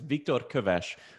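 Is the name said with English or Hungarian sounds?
Hungarian. The name is said with Hungarian sounds. This is the original form of the name. "the correct pronunciation of my name is"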